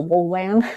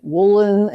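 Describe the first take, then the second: First: "Wolan" with a full, drawn-out "LAN"; "Wolan" with weight on the second syllable; correct surname pronunciation. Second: "Wolin" with a weak, swallowed second syllable; imitating people misreading the surname as "Wolin"; common mispronunciation. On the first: Shown as a demonstration. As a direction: say "Wolan" like "Wolanski" without the "ski". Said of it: "it's Wolanski without the ski". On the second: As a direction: say "Wolin" to rhyme roughly with "woolen". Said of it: "people try to pronounce it".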